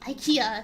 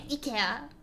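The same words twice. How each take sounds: First: It is said with an English pronunciation. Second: It is said with a Japanese pronunciation. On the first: This is how English speakers say the name. "IKEA in English" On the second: This is how locals say the name. "they say IKEA"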